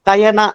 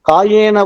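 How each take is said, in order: First: The first vowel is short. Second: The first vowel is long. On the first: The speaker calls it wrong. "இங்கிலீஷ்ல படிக்கும்போது கயனான்னு கூட படிக்கலாம்" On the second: The speaker calls it right. "கான்னு தான் படிக்கணும்"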